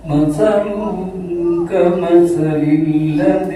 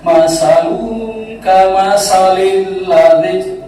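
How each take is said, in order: First: The consonant in mathal is a soft th sound. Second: The consonant in mathal is a plain s sound. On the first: It means 'their likeness'. The speaker calls it right. "Mathaluhum itu berarti perumpamaan bagi mereka" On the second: It changes the meaning toward 'their problem'. The speaker calls it wrong. "kalau salah baca, ... guru kita tidak bisa bedakan sa, ... semua sa"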